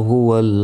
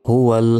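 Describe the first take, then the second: Both takes have the same delivery.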